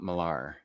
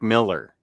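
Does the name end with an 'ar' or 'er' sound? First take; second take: ar; er. First: The name ends with an 'ar' sound. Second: The name ends with an 'er' sound. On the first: The speaker calls it wrong. "not Millar" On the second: The speaker calls it right. "it's Mark Miller"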